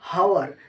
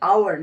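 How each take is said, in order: First: The word begins with an audible h sound. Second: The word begins with a vowel, no h sound. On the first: The speaker calls it wrong. "Not হাওয়ার" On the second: The speaker calls it right. "উচ্চারণটা হচ্ছে আওয়ার"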